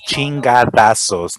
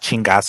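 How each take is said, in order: First: The word has four syllables, with 'da'. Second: The word has three syllables, without 'da'. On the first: The speaker calls it right. "It's chingadazos" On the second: The speaker calls it wrong. "he's not pronouncing it right"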